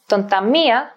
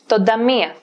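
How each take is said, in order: First: The n is kept before a t sound. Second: The n is dropped before a d sound.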